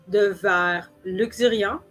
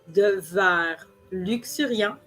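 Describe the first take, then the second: The two takes are said the same way.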